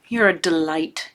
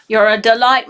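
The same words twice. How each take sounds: First: Said in the usual way. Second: A weak, hammed-up New Zealand accent on "delight"; terrible New Zealand accent. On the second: Greeting her Kiwi friend in a badly faked New Zealand accent. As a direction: try a Kiwi accent on "You're a delight" and barely land it. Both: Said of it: "that was a terrible attempt at a New Zealand accent".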